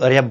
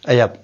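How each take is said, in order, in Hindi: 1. r की आवाज़ साफ़ बोली जाती है। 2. r की आवाज़ छोड़ दी जाती है। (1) "कोई रो को जोर से बोलता है" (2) "कोई रो को साइलेंस में बोलता है"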